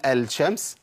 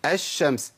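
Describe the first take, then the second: First: الشمس said 'el-shams' with an audible L; questioning 'el-shams', article's L kept; unmerged lam. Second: الشمس said 'esh-shams' with no L; assimilated article in الشمس; merged lam. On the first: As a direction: wrongly sound the L before SH in الشمس. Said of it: "ينفع اقول الشمس؟". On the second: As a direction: double the SH in الشمس, L silent. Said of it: "فقالوا ايه؟". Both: Shown as a demonstration.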